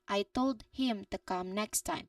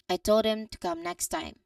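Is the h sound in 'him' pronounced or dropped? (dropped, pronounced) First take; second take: pronounced; dropped. First: It is slow, with the h in 'him' clear. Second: It is natural, with the h in 'him' dropped. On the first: "very slowly and make all the sounds clear" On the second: "the natural elided version"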